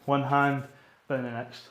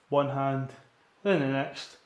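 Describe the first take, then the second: No difference in how they are said.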